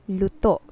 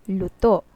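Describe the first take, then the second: First: The word is said quickly and evenly. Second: The same.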